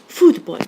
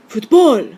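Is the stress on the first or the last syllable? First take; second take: first; last. First: The stress is on the first syllable. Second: The stress is on the last syllable. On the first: The speaker calls it right. "what we say is football" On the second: The speaker calls it wrong. "with the stress on the last syllable"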